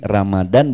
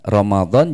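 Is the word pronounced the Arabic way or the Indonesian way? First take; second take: Indonesian; Arabic. First: The word is said with plain Indonesian sounds. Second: The word is said with Arabic sounds. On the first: This is the simplified Indonesian form. "sesuai Kamus Besar Bahasa Indonesia" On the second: This is the original Arabic form. "Ramadan jadi Ramadan bahkan tanpa H"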